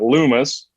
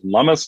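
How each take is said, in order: First: The first vowel sounds like the one in 'loom'. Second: The first vowel sounds like the one in 'hum'. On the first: The speaker calls it wrong. "not Loomis" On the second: The speaker calls it right. "You pronounce it Lummis"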